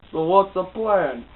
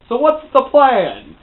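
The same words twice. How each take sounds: First: Said in the usual way. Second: High, loud, drawn-out question; dramatic shout. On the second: Retold or imitated. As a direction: burst out with a hammed-up slow yell. Repeats question as sudden dramatic outburst.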